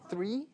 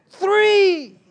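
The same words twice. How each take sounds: First: Puzzled echo. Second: High, loud, drawn-out count; kid's shouted count. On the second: Little brother shouts his count from the back seat. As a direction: yell the number like a sulking child. Angry kid counting restaurants. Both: Retold or imitated.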